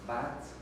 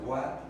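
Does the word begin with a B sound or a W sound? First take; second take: B sound; W sound. First: It begins with a b sound. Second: It begins with a w-like sound. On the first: This is the correct form, though rarely used. "el sonido debe ser con B, debe ser watt" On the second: This is how people usually say it. "muchas veces decimos watt"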